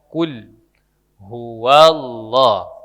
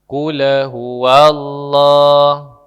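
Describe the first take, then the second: First: The lam ends cleanly with no added vowel. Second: The lam bounces with an added vowel after it. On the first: The speaker calls it right. "huruf lam itu tidak dipantul" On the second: The speaker calls it wrong. "itu memantul"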